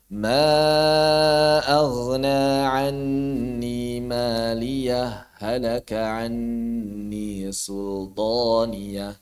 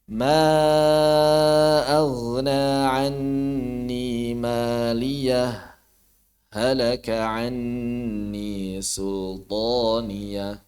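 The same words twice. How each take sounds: First: The two h sounds merge without any pause. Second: A brief silent stop comes after maliyah. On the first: "Yang pertama idgham karena memang ha bertemu ha" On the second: "tidak diidghamkan melainkan ditahan beberapa saat"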